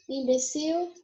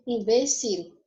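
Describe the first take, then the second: First: Imbecil higher, stressed on CIL. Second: Imbecil with the stress on BE. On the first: Teacher gives the Portuguese take, stress on CIL in Imbecil. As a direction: say Imbecil as imbeCIL, rising. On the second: Teacher gives the Spanish take, stress on BE in imbecil. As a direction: say imbecil as imBÉcil, falling. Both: Shown as a demonstration. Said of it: "só muda a sílaba tônica".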